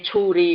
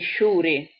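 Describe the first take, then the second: First: The word begins with a full 'ch' sound. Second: The word begins with a soft 'sh' sound. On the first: "non mi viene a dire ciuri" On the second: "mi viene a dire sciuri"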